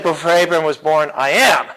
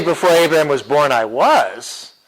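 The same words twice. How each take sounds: First: "am" punched at the end; stress on AM. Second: "was" punched at the end; stress on WAS. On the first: Teacher giving what Jesus really said, stress on "am". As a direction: land hard on "am". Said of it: "He said". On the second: Teacher giving the wording Jesus didn't use, stress on "was". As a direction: land hard on "was". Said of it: "He didn't say". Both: Shown as a demonstration.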